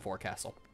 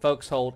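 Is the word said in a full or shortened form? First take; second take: full; shortened. First: It is said in full, the way it is written. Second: It is said in a shortened form, like 'folks hold'. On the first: "I know it's spelled forecastle" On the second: "I think it's pronounced folks hold"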